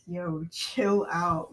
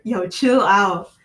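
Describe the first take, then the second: First: Slow chill out; drawn-out yo, chill out; slow, drawn-out calm-down. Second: Slow, louder chill out; emphatic slow chill out. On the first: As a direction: stretch out chill out, calmly. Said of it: "I'd be like". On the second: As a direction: lean on chill, slowly. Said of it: "if it was, like, a year". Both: Pretend.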